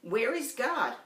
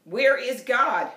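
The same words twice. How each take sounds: First: A hint of a stern preacher; lightly voiced stern pastor. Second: Slow, loud bellowed question; booming pastor bellows at the boy; bellowing pastor. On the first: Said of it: "asked him sternly". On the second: Acted. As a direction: boom it out like a huge pastor.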